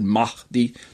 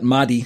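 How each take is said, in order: First: The H is pronounced with heavy breathiness. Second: The H is pronounced lightly with little breath. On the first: The speaker calls it wrong. "too much breathiness on the H" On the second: The speaker calls it right. "I'm going to switch to that one"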